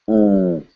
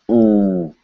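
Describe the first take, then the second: Both takes have the same delivery.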